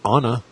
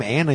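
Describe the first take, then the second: First: "Anna" starting with the vowel of "father"; Anna with broad a. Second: "Anna" starting like "Ann"; Anna with short a. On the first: Showing the mistaken name, "Anna" as AH-nuh. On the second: Arguing about a girl's name, "Anna" as ANN-uh. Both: Shown as a demonstration. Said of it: "you don't call her Anna".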